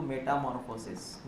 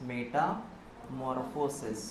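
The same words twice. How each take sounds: First: Said in the usual way. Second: Metamorphosis slowly, broken into two parts; slow dictation. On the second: Shown as a demonstration. Teacher repeating a new term for the class, slow and segmented. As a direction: spell out Metamorphosis by ear, pausing after Meta.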